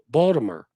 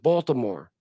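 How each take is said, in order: First: The city name is said in a local accent. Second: The city name is said in a standard accent. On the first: This is how locals say it. "They pronounce it Balt- Baltimore" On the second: This is not how locals say it. "They don't pronounce it Baltimore"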